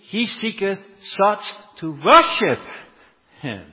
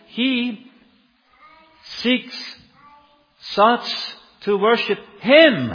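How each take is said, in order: First: The emphasis does not fall on 'Him'. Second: The emphasis falls on the final word 'Him'.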